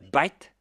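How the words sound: It starts with a B sound, Indian-style.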